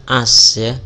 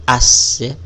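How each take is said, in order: No difference in how they are said.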